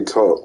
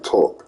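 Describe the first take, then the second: First: Said in the usual way. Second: "talk" with an East Coast vowel; East Coast pronunciation. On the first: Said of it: "You say, you say talk". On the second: Shown as a demonstration. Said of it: "That's an accent".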